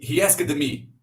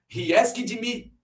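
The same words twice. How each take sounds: First: The ending is a voiced D sound. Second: The ending is an extra syllable, 'id'. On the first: "Vamos tentar com D. ... Meio forçado" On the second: "Vamos tentar o som de id. ... Meio forçado"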